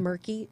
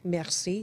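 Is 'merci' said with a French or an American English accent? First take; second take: American English; French. First: It is said with an American English accent. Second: It is said with a French accent. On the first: The speaker calls it wrong. "not murky ... I heard a guy from Texas say that ... not pretty" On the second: The speaker calls it right. "Merci, not"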